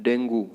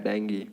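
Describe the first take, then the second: First: डेंगू ending in "oo": DEN-goo; wrong pronunciation. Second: डेंगी ending in "ee": DEN-gee; correct pronunciation. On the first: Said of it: "डेंगू नहीं बोलना है". (डेंगू के अंत में ऊ) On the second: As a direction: say डेंगी as "deng-ghee". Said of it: "सही उच्चारण इसका है". (डेंगी के अंत में ई) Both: Shown as a demonstration.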